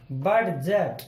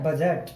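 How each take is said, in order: First: बडजट with a clearly sounded d before j; wrong pronunciation. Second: बजट said "bajat" with the d silent; correct pronunciation. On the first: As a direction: stress the d in बडजट as a mistake. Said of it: "जो कि गलत होता". (गलत उच्चारण, बडजट में डी साफ़ बोलना) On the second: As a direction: say बजट plainly, no d sound. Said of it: "ये है बजट". (सही उच्चारण, बजट में डी silent) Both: Shown as a demonstration.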